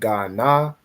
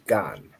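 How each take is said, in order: First: The word ends with an open 'a' vowel. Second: The word ends on the 'n' consonant. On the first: The speaker calls it wrong. "instead of saying Ghana" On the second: The speaker calls it right. "the A drops off of the na, so it just becomes gan"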